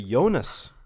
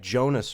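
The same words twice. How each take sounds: First: The name begins with a soft J sound. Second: The name begins with a hard J sound. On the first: The speaker calls it wrong. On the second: The speaker calls it right.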